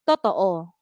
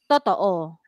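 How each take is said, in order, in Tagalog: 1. Mababa ang tono sa huling patinig. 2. Mababa ang tono sa huling patinig.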